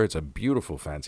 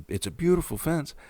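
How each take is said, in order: First: Said in the usual way. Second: High-pitched gushing imitation of "beautiful fence"; gushing quote. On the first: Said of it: "he says". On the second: Quoting the neighbor's exact words about the fence, high and gushing. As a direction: mimic his exact sweet praise, pitched up. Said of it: "that was the exact words he said".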